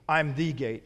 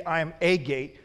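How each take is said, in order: First: THE said as a full "thee"; stress on THE. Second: A said as a full "ay", set apart; stress on A. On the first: Preacher correcting to what Jesus says, stress on THE. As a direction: lean on THE, meaning the one and only. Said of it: "he doesn't say, "I am a gate". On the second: Preacher quoting what Jesus doesn't say, stress on A. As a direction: lean on A as the word to reject. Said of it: "he doesn't say". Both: Shown as a demonstration.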